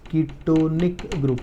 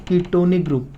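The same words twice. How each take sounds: First: Ketonic stretched syllable by syllable; drawn-out teacher's ketonic; slow dictation. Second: Said in the usual way. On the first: Real, not acted. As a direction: say ketonic very slowly, as if writing along. Repeats the term while writing.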